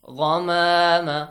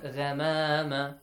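First: The gh sound is heavy and full. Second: The gh sound is light and thin. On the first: The speaker calls it right. "heavy letters" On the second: The speaker calls it wrong.

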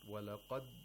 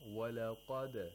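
First: The final d is held closed without release. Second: The final d is released with a quick bounce. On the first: The speaker calls it wrong. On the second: The speaker calls it right.

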